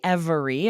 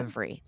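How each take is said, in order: First: The word is said with three syllables. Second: The word is said with two syllables. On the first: "sometimes people will pronounce this with three syllables" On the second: "often dropping that middle syllable"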